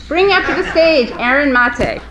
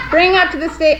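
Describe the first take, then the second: First: Inside a rubber mask. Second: Muffled through a hot mask; inside a rubber mask. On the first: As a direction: announce through a mask. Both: Real, not acted. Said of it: "I'm hot in this mask".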